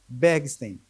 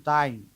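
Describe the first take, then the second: First: The name is read just as it is spelled. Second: The name is not read as it is spelled. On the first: The speaker says it this way. "eu pronuncio, como já ensinava Ariano Suassuna, do jeito que está aqui" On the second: Some people say it this way. "alguns pronunciam"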